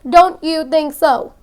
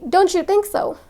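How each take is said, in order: First: The T and the Y stay separate. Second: The T and the Y blend into ch. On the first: The speaker calls it wrong. "That's how normally people that start to learn English would say it" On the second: The speaker calls it right. "There's this ch sound"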